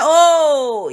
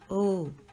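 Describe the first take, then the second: First: The vowel is held long and drawn out. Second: The vowel is short and clipped. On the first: The caller was heard and will be answered very soon. "when you draw it out like that" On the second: The caller was heard, with less eagerness to respond. "when you just say"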